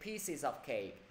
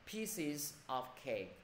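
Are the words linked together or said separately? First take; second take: linked; separately. First: The words are linked smoothly together. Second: The words are said separately without linking. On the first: "thầy khuyến khích đọc nối đi" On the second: "ai chưa đọc nối được thì cố gắng đọc là"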